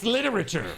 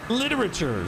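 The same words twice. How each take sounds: First: "literature" with a ch sound, lit-er-a-chur; slip in pronunciation. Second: "Literature" with a clear t sound, lit-er-a-ter; "Literature" carefully said as lit-er-a-ter with a hard t; corrected pronunciation. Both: Real, not acted. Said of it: "Literature, sorry".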